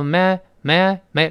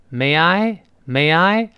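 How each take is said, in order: First: May I merged into one quick syllable; run together. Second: May I drawn out, both words full; slow, separate words. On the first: Teacher shows fast speech, May run together with I. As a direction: say May with the I linked into it. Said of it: "连到一块儿了". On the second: Teacher shows the phrase before speeding up, May I slow. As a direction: say May I slowly, unlinked. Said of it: "这读快之后". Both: Shown as a demonstration.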